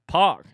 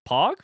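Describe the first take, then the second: First: It is said as an excited exclamation. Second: It rises like a question.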